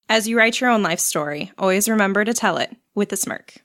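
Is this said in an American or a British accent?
American. It is said in a plain American accent.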